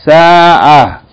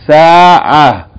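The two takes are said the same way.

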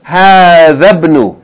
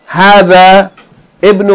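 First: The two words run together without a break. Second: The second word starts with its own vowel. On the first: The speaker calls it right. "we're going to say hadhabnu" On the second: The speaker calls it wrong. "we're not going to say ibnu"

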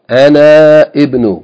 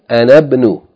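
First: The final vowel of ana is held long. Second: The final vowel of ana is shortened into ibnu. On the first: The speaker calls it wrong. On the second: The speaker calls it right. "we're not going to pronounce this long vowel when it's followed by Hamzatul Wasl"

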